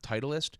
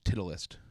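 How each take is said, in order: First: The name is said in its usual pronunciation. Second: The name is said in an unusual, misread pronunciation. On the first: The speaker calls it right. "the first time he's seen the word Titleist" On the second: The speaker calls it wrong. "he thought it was pronounced Titleist"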